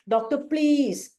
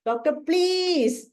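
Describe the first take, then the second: First: Slow, drawn-out plea to the doctor; anxious pleading. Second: Very slow plea pitched higher; more desperate pleading. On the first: Patient slowly begging the doctor for help, anxious plea. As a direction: beg slowly, worried for your health. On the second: Anxious patient begging the doctor again, higher and more desperate. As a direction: stretch it out, begging harder. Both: Retold or imitated. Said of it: "This will be the pleading of Arsalb".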